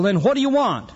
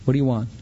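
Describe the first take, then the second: First: The question is said in a defiant tone. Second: The question is said in a defeated tone. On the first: The speaker is resisting and challenging God. The speaker calls it wrong. "But we always say it with defiance" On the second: The speaker has surrendered to God's will. The speaker calls it right. "When you say it with defeat, then you've arrived"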